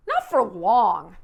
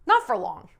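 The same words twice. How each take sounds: First: "Not for long" slow, loud, weight on "Not"; stressed not for long. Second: Said in the usual way. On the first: Shown as a demonstration. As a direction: lean on "Not" and drag it out. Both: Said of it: "it doesn't seem to work".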